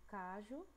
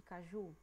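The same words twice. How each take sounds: First: Cajo stressed on CA; wrongly stressed cajo, CA-ju; stress on first syllable. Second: Caju stressed on JU; stress on last syllable. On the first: Teacher contrasting for pupils, cajo stressed on CA. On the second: Teacher contrasting for pupils, caju stressed on JU. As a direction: lengthen the final JU of caju. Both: Shown as a demonstration. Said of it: "Olha a diferença".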